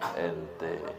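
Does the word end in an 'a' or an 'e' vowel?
e. The word ends with an 'e' vowel. "Yang ada e itu di orang Betawi"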